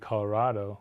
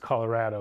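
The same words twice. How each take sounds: First: The stressed syllable sounds like 'rod'. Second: The stressed syllable sounds like 'rad'. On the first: The speaker is newer to the state. "So it should be Colorado, like avocado, like tostado" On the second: The speaker grew up in the state. "Locals will say, well, of course it's Colorado"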